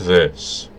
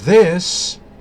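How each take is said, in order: First: The voice is lower and deeper. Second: The voice is higher and lighter. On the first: This is the voice after the second change. "to this" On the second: This is the voice after the first change. "it went from this"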